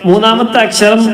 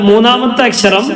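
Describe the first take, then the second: No difference in how they are said.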